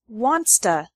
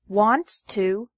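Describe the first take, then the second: First: The words blend together with a reduced vowel. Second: Both words are said fully and separately.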